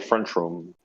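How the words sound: It is run together with a 'ch' sound, Chicago style.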